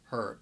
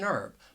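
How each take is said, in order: First: The word starts with an audible H sound. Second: The word starts with a vowel, no H sound. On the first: This is how it is said in the UK. "they would pronounce that H and you would hear that consonant sound" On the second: This is how it is said in the United States. "that H is silent"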